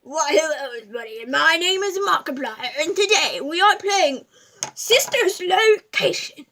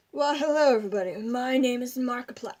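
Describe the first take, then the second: First: Markiplier impression. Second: A light take on a YouTuber's greeting; lightly voiced gamer intro; Markiplier impression. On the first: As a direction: boom it like a YouTuber opening a video. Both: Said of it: "my impression of Markiplier".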